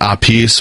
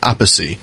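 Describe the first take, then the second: First: The name is said with two syllables. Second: The name is said with three syllables. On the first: This is how the drummer himself says his name. "[name] pronounces it Apis" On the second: This is how the drummer's brother says the name. "the three-syllable Appice"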